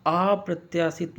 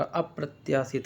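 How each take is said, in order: First: अप्रत्याशित with a long opening "aa"; mispronounced word. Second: अप्रत्याशित with short first a, "ap-pratyaasit"; correct pronunciation. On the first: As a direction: stretch the first vowel of अप्रत्याशित. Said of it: "नहीं होगा यार". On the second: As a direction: open अप्रत्याशित on a brief a. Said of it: "छोटा वाला आ होगा". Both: Shown as a demonstration.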